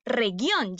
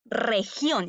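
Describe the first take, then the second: First: "región" said as "reguión"; "región" with a g as in "gato"; wrong hard G. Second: "región" said as "rejión"; set-apart "región", g sounding like j; correct soft G. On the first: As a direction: demonstrate the mistake, hard g in "región". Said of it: "pero yo no digo". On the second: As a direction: model "región" with throaty Spanish j. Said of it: "yo digo". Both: Shown as a demonstration.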